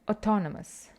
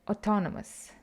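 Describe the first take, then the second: No difference in how they are said.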